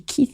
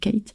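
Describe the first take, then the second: First: The name is said with an 'ee' vowel. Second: The name is said with an 'ay' vowel. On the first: It sounds more rock'n'roll. "on dit ah mais c'est Keith en fait" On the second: It sounds more classic. "je me présente, je dis Kate"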